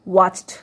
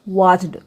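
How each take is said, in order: First: The ending is pronounced as a t sound. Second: The ending is pronounced as a d sound. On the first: The speaker calls it right. "ट" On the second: The speaker calls it wrong. "Not वॉच्ड"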